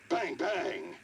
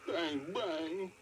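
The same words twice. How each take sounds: First: It is said in an angry tone. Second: It is said in a sad tone.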